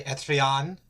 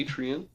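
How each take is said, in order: First: Etrian said ET-ree-ON, rising at the end; French-style pronunciation. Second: Etrian said EE-tree-an, with a long ee first; chosen pronunciation. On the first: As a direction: make Etrian French, short e and open final "on". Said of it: "it's gonna be French". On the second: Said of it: "I'm gonna say Etrian". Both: Shown as a demonstration.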